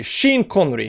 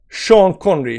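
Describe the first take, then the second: First: "Sheen" with a long ee in place of "shawn"; alternative pronunciation. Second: "Sean" in "Sean Connery" said as "shawn"; common pronunciation. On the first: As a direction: swap in "Sheen", rhyming with bean. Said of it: "You can say Sheen". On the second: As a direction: round aw vowel on "Sean". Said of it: "Sean is commonly pronounced Sean". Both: Shown as a demonstration.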